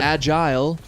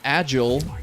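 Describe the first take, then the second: First: It is said with a British pronunciation. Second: It is said with an American pronunciation. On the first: "agile is more British" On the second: "agile is an American pronunciation"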